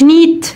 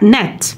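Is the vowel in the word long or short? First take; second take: long; short. First: The vowel is drawn out long, like ee. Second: The vowel is short and quickly clipped. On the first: The speaker calls it wrong. "ما قولش نيت" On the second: The speaker calls it right. "وبتتخطف في الكلمة زي النت"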